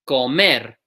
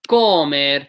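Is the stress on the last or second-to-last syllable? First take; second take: last; second-to-last. First: The stress is on the last syllable. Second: The stress is on the second-to-last syllable. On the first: The speaker calls it right. "It's the last syllable that gets the stress" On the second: The speaker calls it wrong. "by these rules should be"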